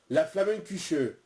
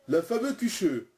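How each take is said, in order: First: "La Flammenküche" said slowly and clearly as one word; correct pronunciation. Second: Says "La fameuse Küche" instead of Flammenküche; wrong word, blurred together. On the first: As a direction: carefully pronounce "La Flammenküche". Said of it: "Hubert l'a bien dit". (« La Flammenküche » bien articulé, lentement) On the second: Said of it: "vous m'avez dit fameux Küche". (dit « La fameuse Küche » au lieu de Flammenküche) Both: Acted.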